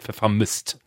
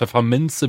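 First: The word ends in a t sound. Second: The word ends in a vowel sound. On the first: This is how the mother says the word. "wird Pfefferminzt" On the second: This is the standard form of the word. "Aus Pfefferminze wird"

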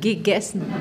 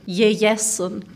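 First: The first G sounds like a hard G. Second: The first G sounds like an English Y. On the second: "Die Rheinländer sprechen das G wie ein J"

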